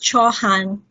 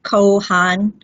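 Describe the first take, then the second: First: The name begins with a ch sound. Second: The name begins with a hard k sound. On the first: The speaker calls it right. "It is Chauhan" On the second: The speaker calls it wrong. "No, it is not Kohan"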